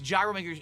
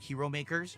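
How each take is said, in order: First: The word gyro begins with a J sound. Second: The word gyro begins with an H sound. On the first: The speaker calls it wrong. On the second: The speaker calls it right.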